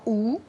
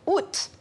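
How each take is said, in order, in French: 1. Le t final est muet. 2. Le t final est prononcé. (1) "la plupart des gens disent encore ou" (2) "la majorité prononce maintenant août"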